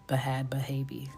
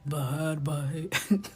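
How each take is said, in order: First: It is said in the speaker's ordinary voice. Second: It is said in an imitated, put-on voice. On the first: The speaker calls it wrong. "You can't just say it like" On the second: The speaker calls it right. "doesn't hit without the"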